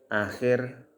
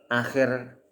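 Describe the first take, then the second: The two takes are said the same way.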